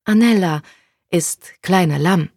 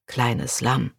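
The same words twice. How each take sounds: First: Put-on slow, halting Italian-accented German; Italian girl groping for German words, higher; broken German. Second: Said in the usual way. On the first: A narrator's reading. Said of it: "in holprigem Deutsch". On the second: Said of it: "wiederholte Konrad".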